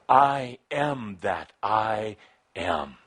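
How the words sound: It is said with passion and intensity.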